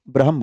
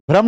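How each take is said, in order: First: ब्रह्म lower, with the h sounded, bra-hm; the right ब्रह्म, said lower with the h kept; correct pronunciation. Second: ब्रह्म clipped into one quick syllable, brahm; the wrong way to say ब्रह्म, as one clipped syllable; wrong pronunciation. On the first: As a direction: say ब्रह्म with a clear h between the consonants. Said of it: "ब्रह्म बोलना है". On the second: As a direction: say ब्रह्म fast as brahm, the h swallowed. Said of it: "ब्रह्म नहीं बोलना है". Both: Shown as a demonstration.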